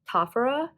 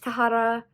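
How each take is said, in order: First: The name is said with an f sound. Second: The name is said with an h sound. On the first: The speaker calls it wrong. "which made me pronounce it Tafara" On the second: The speaker calls it right. "It's Tahara"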